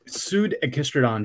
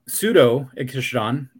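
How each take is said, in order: First: The name runs 'pseud' straight into 'ag'. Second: An extra 'o' syllable comes before 'ag'. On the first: The speaker calls it wrong. "just doesn't roll off the tongue" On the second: The speaker calls it right. "even though you're adding a syllable, even sounds better"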